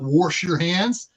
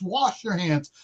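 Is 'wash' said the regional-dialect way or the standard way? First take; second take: regional; standard. First: Wash is said with the regional dialect pronunciation. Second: Wash is said with the standard pronunciation. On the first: This is an inherited family dialect form. The speaker calls it wrong. "not wash your hands" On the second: This is the accepted way to say it. The speaker calls it right. "It's wash your hands"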